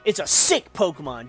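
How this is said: It sounds impressed, like calling something cool.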